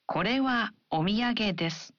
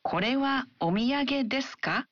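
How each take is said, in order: First: Falling statement tune on desu; plain statement, falling at the end. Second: Ka rises at the end; rising question. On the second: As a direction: lift the final ka into a question. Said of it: "add a rising intonation". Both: Shown as a demonstration.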